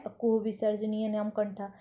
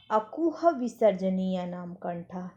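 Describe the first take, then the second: First: Said in the usual way. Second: अकुह विसर्जनीय नाम कंठा spelled out slowly, syllable by syllable; slow, careful recitation of अकुह विसर्जनीय नाम कंठा; slow sutra recital. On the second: Shown as a demonstration. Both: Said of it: "सबसे पहला क्या है?".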